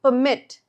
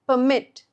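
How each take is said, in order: First: The stress is on the second syllable. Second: The stress is on the second syllable.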